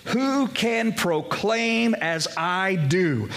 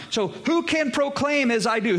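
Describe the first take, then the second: First: Every word drawn out and weighed, stress on Who; slow emphatic reading. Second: Higher and pressing, hit "who" hard; raised preaching challenge. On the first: To the congregation, slowly stressing "Who" in the verse. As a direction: pastor slowly lingers on "Who can proclaim as I do?". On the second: Pastor challenges the congregation, higher, pressing "who". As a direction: fling "So who can proclaim as I do?" out as a challenge. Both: Shown as a demonstration. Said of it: "And notice this".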